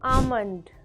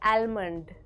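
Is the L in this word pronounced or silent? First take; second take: silent; pronounced. First: The L sound is not pronounced. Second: The L sound is clearly pronounced. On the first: The speaker calls it right. "L is silent" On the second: The speaker calls it wrong. "not almond"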